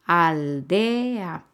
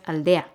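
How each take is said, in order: First: "aldea" very slowly, as al... de... a; split into syllables. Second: Said in the usual way. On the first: Shown as a demonstration. Teacher showing the hiatus, "aldea" slowly in three syllables. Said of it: "Son tres sílabas". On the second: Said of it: "No es aldea".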